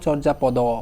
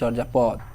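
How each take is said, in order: First: The word ends with an added final o vowel. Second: The word ends on a bare d consonant. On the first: The speaker calls it wrong. "আমরা বলি না কখনো চর্যা পদ" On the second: The speaker calls it right. "আমরা বলি চর্যা পদ, normally এটা বলি"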